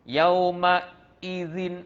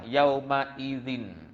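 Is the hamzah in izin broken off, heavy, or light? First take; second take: broken off; light. First: A gap breaks the flow before the hamzah. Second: The hamzah is clear but light and flowing. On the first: The speaker calls it wrong. "Jangan sampai nampak macam ada gap. ... ah tu kena diperbaiki lagi" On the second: The speaker calls it right. "Cepat tapi jaga hamzah tu. Tidak ditekankan ... Just dikuatkan, dijelaskan"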